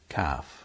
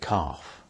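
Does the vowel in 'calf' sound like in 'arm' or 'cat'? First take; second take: cat; arm. First: The vowel is short, like in cat. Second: The vowel is long, like in arm. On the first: "some people say calf" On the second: "I say calf"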